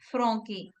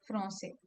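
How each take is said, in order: First: The c is pronounced as a hard k. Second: The c is pronounced as a soft s. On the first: The speaker calls it wrong. "if we say Francais without the accent" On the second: The speaker calls it right. "we use the accent so that it will sound like the original sound"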